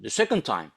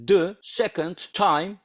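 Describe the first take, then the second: First: The phrase is said quickly as one unit. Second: The phrase is said slowly, word by word. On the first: "sonra bunu hızlandırmam lazım" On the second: "tamam başlangıçta böyle"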